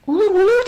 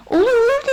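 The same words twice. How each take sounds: First: High, loud, excited agreement; mother eagerly agreeing. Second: Put-on very high, loud childlike agreement; children eagerly agreeing. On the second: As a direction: chime in like excited children. Children eagerly agree after mother. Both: A narrator's reading.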